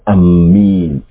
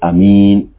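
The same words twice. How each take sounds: First: The m sound is doubled and held. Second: The first vowel is short and plain. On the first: The speaker calls it wrong. "it's not permissible to to double the meme" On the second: The speaker calls it right. "and without the mad"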